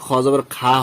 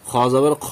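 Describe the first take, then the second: First: The vowel is a clear open a. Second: The vowel is a rounded o-like sound. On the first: The speaker calls it wrong. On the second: The speaker calls it right.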